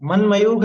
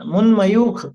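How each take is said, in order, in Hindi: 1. पहला अक्षर बिना ज़्यादा ज़ोर के बोला जाता है। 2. पहला अक्षर ज़्यादा ज़ोर से बोला जाता है। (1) "नहीं" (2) "पहला अक्षर उसको थोड़ा सा जोर दे करके अपने को लेना है"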